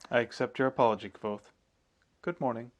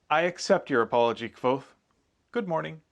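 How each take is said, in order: First: It is said with flat, restrained intonation. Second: It is said with lively, varied intonation.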